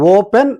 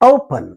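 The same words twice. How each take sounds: First: The first vowel is a steady, pure o. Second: The first vowel glides from o toward u. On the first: The speaker calls it wrong. "ఓప్ ఓపెన్ అని అంటాం మనం" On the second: The speaker calls it right. "ఓ పన్ ఓపెన్ ఇలా పలికితే చక్కగా ఉంటుంది"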